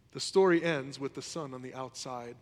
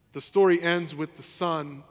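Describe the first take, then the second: First: Said in the usual way. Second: The story ends with the son, slow and louder; slow emphatic restatement. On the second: Shown as a demonstration. Pastor hammers home the parable's open ending, slow and loud. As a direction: lean hard on story, drawn out.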